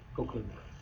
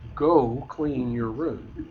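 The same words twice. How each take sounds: First: It is said in a casual, mild tone. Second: It is said in a stern, commanding tone.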